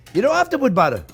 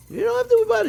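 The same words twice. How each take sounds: First: Said in the usual way. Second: Much higher, playful sing-song; high teasing echo of the same line; squeaky high repeat. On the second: Shown as a demonstration. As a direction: jump way up high to tease. Repeats reassurance to viewers.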